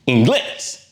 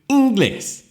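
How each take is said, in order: First: The stress is on the last syllable. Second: The stress is on the first syllable. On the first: The speaker calls it right. "the stress is actually on the last syllable" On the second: The speaker calls it wrong. "we'd expect the stress to land on the second to the last syllable"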